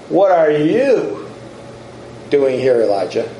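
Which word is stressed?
you. The stress is on "you".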